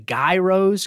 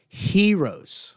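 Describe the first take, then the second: First: It begins with a hard G sound. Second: It begins with a soft H-Y sound. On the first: The speaker calls it wrong. "some people say gyros because there's a G in it" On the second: The speaker calls it right. "pronounced like you're saying hero, but with a little Y in there"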